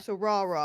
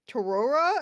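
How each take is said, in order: First: The name begins without any T sound. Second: The name begins with a clear T sound. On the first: The speaker calls it right. "you don't say the T" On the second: The speaker calls it wrong. "I was like Torora, and they're like no"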